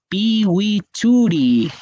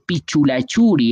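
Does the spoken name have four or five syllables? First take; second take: four; five. First: The name is said with four syllables, pi-wi-chu-ri. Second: The name is said with five syllables, pi-chu-la-chu-ri. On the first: The speaker calls it right. "Se dice Piwichuri" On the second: The speaker calls it wrong. "no se dice Pichulachuri"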